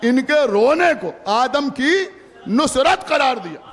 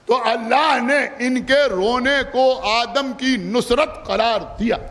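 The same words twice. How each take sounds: First: Slow build into a shout on Nusrat; louder emphatic repeat. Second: Slow, drawn out. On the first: Preacher repeating to mourners, loud emphatic restatement. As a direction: drive the point home, hit Nusrat hard. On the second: Preacher to mourners, slow drawn-out first telling. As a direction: stretch every word slowly, rising on इनके. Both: Shown as a demonstration. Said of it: "सुना आपने या नहीं सुना?".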